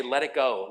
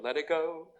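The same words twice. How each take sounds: First: Said in the usual way. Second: Lightly lilting movie-heroine line; a hint of a Disney princess; Elsa. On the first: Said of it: "Jesus is trying to say". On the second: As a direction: softly echo a film song with a rising end. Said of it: "like Elsa in Frozen".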